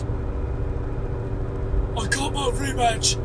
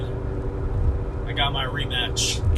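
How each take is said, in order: First: It is said in a put-on imitation voice. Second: It is said in the speaker's normal voice.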